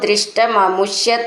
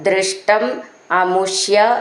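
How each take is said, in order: First: The two words are run together. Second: The two words are said separately.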